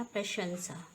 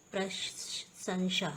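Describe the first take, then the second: First: प्रशंसा with sh before s, prashansa; correct pronunciation. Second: प्रशंसा with s and sh muddled, prasansha; wrong pronunciation. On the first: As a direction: put sh first in प्रशंसा. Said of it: "श आता है". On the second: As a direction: swap the sibilants in प्रशंसा. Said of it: "ये क्या होता है हमारा?". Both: Shown as a demonstration.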